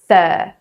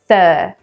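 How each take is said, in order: First: The R sound is cut off after the vowel. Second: The R sound is cut off after the vowel.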